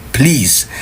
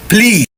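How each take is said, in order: First: Said in the usual way. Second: Emphatic plea. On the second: Real, not acted.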